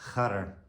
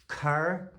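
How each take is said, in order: First: It starts with a breathy, softened ch sound. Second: It starts with a plain hard k sound.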